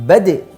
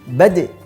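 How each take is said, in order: First: The final d is released with a strong bounce. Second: The same.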